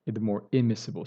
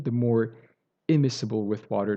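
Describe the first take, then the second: First: "immiscible" leaned on, slowed and falling; emphasizing immiscible. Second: Said in the usual way. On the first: Shown as a demonstration. Teacher stressing "immiscible" to students, weight on that word. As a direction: land hard on "immiscible". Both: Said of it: "So I'm emphasizing this".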